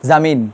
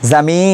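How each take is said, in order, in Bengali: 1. শব্দটি একটি পূর্ণ 'ন' ধ্বনি দিয়ে শেষ হয়। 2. শব্দটি একটি অনুনাসিক স্বরধ্বনি দিয়ে শেষ হয়। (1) "নুন হলে" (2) "এটা নুনি গুন্না হবে"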